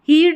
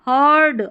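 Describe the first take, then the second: First: The vowel is a long 'ee' sound. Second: The vowel is an 'uh' sound. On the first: The speaker calls it wrong. "हीड नहीं पढ़ेंगे" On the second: The speaker calls it right. "इसको अ करके पढ़ेंगे"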